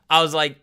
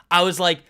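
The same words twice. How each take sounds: The two takes are said the same way.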